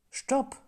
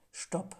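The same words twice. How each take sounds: First: Loud stop. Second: Soft stop. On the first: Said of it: "Überprüft doch mal". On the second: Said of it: "bevor ihr so etwas aussprechen wollt". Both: Shown as a demonstration.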